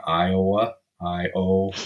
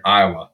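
First: "Iowa" slowly with a clear long O, "Eye-oh-wa"; corrective full O. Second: "Iowa" with the middle O swallowed, like "Eye-uh-wa"; imitated mispronunciation. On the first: Retold or imitated. Host correcting the friend, slow "Eye-oh-wa" with full O. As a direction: separate "Iowa" into syllables, holding the O. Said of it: "You say your O's very O". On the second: Host quoting a visiting friend, "Iowa" without its O. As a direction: squash "Iowa" so the O nearly vanishes. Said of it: "You mean Iowa?".

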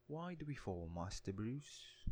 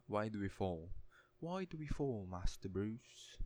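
First: Softer English butler accent, high start, slow Master Bruce; English accent again, slow and gentle; Alfred's English accent. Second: English accent, Alfred to Master Bruce; English butler accent. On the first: Retaking Alfred's line in an English accent. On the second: Quoting Alfred to Bruce Wayne, English accent. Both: Shown as a demonstration. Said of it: "That's my best attempt at an English accent".

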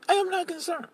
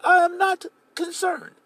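First: High but softer, I am not concerned let go quietly; David settling it, I am not concerned said softer; softer repeat. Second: High, slow and deliberate, every word of I am not concerned weighed; David insisting I am not concerned, slow and high; emphatic not concerned. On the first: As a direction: drop I am not concerned back down to a hush. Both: Retold or imitated. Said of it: "David's like".

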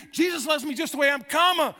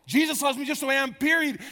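First: High, quick line with "comma" thrown forward loudly; continuing stress on COMMA. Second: High, quick line shut down by a falling "period"; full stop on PERIOD. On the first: Preacher correcting the gospel, emphatic "comma" leading on. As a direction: rattle it off fast, then punch "comma" high and loud. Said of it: "And he saved me". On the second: Preacher quoting a mistaken gospel, closed-off "period". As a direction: rattle it off fast, then land "period" with finality. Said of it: "That's not the gospel". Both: Shown as a demonstration.

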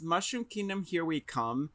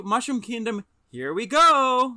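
First: Said in the usual way. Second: Higher and louder, stretching "here we go" slowly like Mario; the hero's eager battle cry, drawn out; Mario catchphrase. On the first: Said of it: "they couldn't just do". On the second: Retold or imitated. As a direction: cheer "Mushroom Kingdom, here we go" in a lively Mario voice. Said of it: "one of Mario's taglines is".

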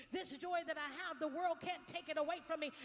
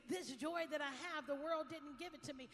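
First: Second line pushed higher and louder; louder praise. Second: Loud praise. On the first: Pastor echoing Marion's praise, louder the second time. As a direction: lift the repeat above the first. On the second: Sung-like praise. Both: Retold or imitated.

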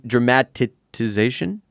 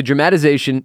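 First: "dramatization" drawn out haltingly, as a question; unsure pronunciation. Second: Said in the usual way. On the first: Real, not acted. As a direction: stumble slowly through "dramatization", unsure how to say it. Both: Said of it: "Someone knows how to say it".

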